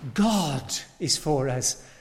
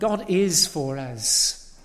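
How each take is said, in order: First: The stress falls on the word God. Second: The stress falls on the word is. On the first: It is God himself, the limitless one, who is on our side. "It is God, the eternal one" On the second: It is certain, not invented or merely wished for. "This is something certain"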